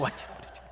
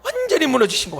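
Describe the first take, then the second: First: Whispered, much softer echo of the line; whispered repeat. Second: Said in the usual way. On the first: Shown as a demonstration. Pastor whispers the teacher's collapse to the congregation. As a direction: breathe it out as a whisper.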